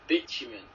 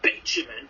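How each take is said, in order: First: The word is said plainly, without extra force. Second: The word is said with heavy, exaggerated emphasis. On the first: "instead of just saying bitumen, like the actual thing" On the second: "she'd just go around and proper emphasise on it, like"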